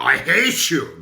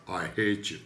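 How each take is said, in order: First: "I hate you" louder, with force on "hate"; "I hate you" said loud and punchy; emphatic. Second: Said in the usual way. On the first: Shown as a demonstration. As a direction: throw "hate" out hard, with a gesture. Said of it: "when we talk with our hands".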